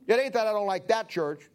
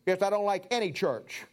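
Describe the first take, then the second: First: Emphasis on "that" before "church"; stress on THAT. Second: Emphasis on "any" before "church"; stress on ANY. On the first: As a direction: lean on "that", setting up a contrast. Contrasts that church with any church. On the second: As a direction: punch "any" as the correction. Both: Shown as a demonstration.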